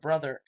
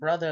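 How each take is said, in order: First: The final R sound is pronounced. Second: The final R sound is dropped. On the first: "instead of" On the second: "dropping the R sound at the end of the words"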